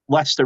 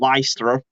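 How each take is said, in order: First: It is said with a British pronunciation. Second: It is said with an American pronunciation. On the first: "in England" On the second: "as Americans would say"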